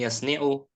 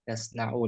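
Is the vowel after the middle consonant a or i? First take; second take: i; a. First: The middle consonant is followed by an i vowel. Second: The middle consonant is followed by an a vowel. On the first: The speaker calls it wrong. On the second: The speaker calls it right. "Yang mudhari'nya di fathain fi'ilnya"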